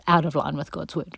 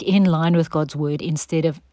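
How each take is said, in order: First: "out" stressed, set against "in". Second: "in" stressed, set against "out". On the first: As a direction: lean on "out" in "out of line". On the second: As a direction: lean on "in" in "in line with God's word". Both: Shown as a demonstration.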